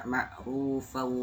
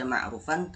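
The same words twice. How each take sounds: First: "ma'rufau" with the n turned into a held "au"; merged ending. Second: Said in the usual way. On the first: Shown as a demonstration. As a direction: end "ma'rufau" on a drawn-out w glide, no n. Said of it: "tapi dibaca ma'rufau". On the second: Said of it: "tidak dibaca ma'rufan".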